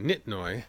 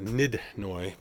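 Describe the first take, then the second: First: The middle consonant is a T sound. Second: The middle consonant is a D sound. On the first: The speaker calls it wrong. "for years I've been saying Nitnoy" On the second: The speaker calls it right. "it's a Nidnoy"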